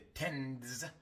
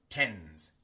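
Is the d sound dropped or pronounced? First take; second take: pronounced; dropped. First: The d sound is pronounced before the s. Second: The d sound is dropped before the s. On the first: The speaker calls it wrong. "En lugar de tends" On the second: The speaker calls it right. "omitimos la D"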